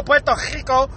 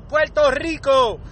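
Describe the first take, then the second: First: "Puerto Rico" with a guttural scraped R; throaty R. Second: "Puerto Rico" slowly with a trilled R; rolled R. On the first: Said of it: "even the ones that go". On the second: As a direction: roll the R in "Rico", slower. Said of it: "We all say it right". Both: Shown as a demonstration.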